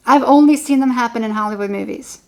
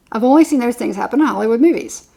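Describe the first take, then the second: First: Only stretched with a rising tune; stress on only. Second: Only stressed with a falling tune. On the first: To the listener about rare reconciliations, stressing "only". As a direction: lean on the word "only", rising. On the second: Repeating the point to the viewer, stressing "only". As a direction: land hard on "only", falling. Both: Shown as a demonstration.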